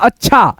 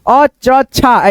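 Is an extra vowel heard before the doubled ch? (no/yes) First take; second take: no; yes. First: The ch sounds join with no vowel. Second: An extra vowel breaks up the ch sounds. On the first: The speaker calls it right. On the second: The speaker calls it wrong.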